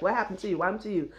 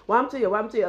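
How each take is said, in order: First: Said in the usual way. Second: Higher-pitched Trinidadian accent, imitating mother; mother's Trinidadian accent. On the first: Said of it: "My mother's like". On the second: Daughter imitating her mother asking about the hand, Trinidadian accent. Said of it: "she truly asked her".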